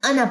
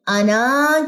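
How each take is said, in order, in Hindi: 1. आख़िरी स्वर छोटा रखा जाता है। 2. आख़िरी स्वर लंबा खींचा जाता है। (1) "नून की सिर्फ जबर पड़ी जाएगी" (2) "ये अलिफ नहीं पढ़ा जाएगा"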